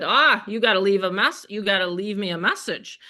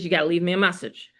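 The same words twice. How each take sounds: First: Teasing scold; playful scolding. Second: Fast, light scold; quick mock scolding. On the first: Retold or imitated. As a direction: wag a finger at him, laughing. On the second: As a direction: rattle it off like a mock reprimand. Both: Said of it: "I scolded him".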